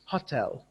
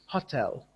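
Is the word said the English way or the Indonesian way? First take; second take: Indonesian; Indonesian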